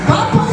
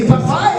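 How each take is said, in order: First: "Papa" said with stress on the first syllable, PA-pa; "Papa" with first-syllable stress, higher and laughing. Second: "papá" with stress on the final syllable, pa-PÁ; "papá" with the accent on the final A, meaning father; stress on the last A. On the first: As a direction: say "Papa" like the word for breast, first syllable strong. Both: Shown as a demonstration. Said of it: "papá tiene acento en la A".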